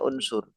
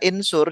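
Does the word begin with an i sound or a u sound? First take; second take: u sound; i sound. First: The word begins with a u vowel. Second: The word begins with an i vowel. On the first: The speaker calls it right. "Makanya unsur domah" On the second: The speaker calls it wrong. "Kalau unsur kita baca insur juga nggak enak"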